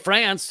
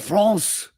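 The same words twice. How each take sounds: First: It has a flat American-style vowel. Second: It has a French-style vowel and ending. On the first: This is how the speaker normally says it. "Or I say France" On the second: This is how the speaker refuses to say it. "I don't say France"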